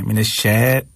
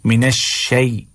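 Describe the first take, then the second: First: "शै" held as flat ae; wrong shay vowel. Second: "शै" closing into a clear y; correct shay glide. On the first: Teacher demonstrating the fault, "मिनश शै" without y glide. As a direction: lose the glide in "शै". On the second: Teacher correcting the fault, "मिनश शै" with glide. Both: Shown as a demonstration. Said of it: "गलत है".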